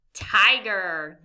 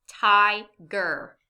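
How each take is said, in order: First: Said in the usual way. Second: TIGER as ti, pause, ger; two separate beats in TIGER; syllable by syllable. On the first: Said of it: "Nice job". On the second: Shown as a demonstration. Teacher quizzes learners, TIGER syllable by syllable. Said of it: "say this word syllable by syllable".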